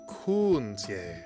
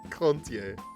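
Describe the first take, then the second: First: The first vowel is an 'ooh' sound. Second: The first vowel is an 'oh' sound. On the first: The speaker calls it right. "It's an ooh vibe, not a oh" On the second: The speaker calls it wrong. "it's not an O sound"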